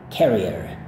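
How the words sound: It is said American style, with the R.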